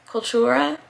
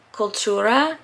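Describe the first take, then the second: First: Cultura repeated quietly with a questioning rise; unsure pronunciation. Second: Cultura sounded out carefully, unsure Spanish; Spanish attempt. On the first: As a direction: Cultura checked again, rising as if asking. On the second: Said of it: "sorry if my accent butchers these things". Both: Shown as a demonstration.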